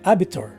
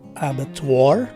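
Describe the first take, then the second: First: The last syllable ends in a 'tor' sound. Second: The last syllable ends in a 'twar' sound. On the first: "the letter W is dropped and the letter O takes a slightly stressed O" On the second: "the twar sound with a stressed or circumflexed A sound"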